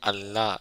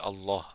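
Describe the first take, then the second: First: The word is said with a light, thin sound. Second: The word is said with a heavy, weighty sound. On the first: The speaker calls it wrong. "you won't say Allah" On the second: The speaker calls it right. "you make it more weighty"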